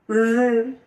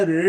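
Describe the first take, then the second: First: রি held long, with an English R colour. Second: Said in the usual way. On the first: Shown as a demonstration. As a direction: draw out রি like an R. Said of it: "আর এর মতো". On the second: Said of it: "Bangla রি".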